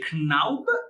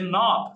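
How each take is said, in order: First: The name is pronounced the German way. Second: The name is pronounced the American way. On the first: "The Germans would say" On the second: "the Americans would say"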